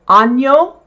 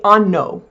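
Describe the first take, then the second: First: The middle consonant is a ny sound. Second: The middle consonant is a plain n sound. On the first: The speaker calls it right. "That is pronounced Nya" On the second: The speaker calls it wrong. "to not pronounce it like an N"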